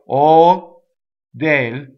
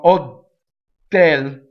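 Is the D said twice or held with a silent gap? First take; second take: silent gap; said twice. First: A silent hold comes before one D. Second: Two separate D sounds are pronounced. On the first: The speaker calls it right. "I go ... it's the space that makes the expression" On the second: The speaker calls it wrong. "I don't in any way do two D's. I don't go"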